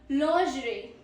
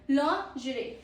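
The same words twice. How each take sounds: Both takes have the same delivery.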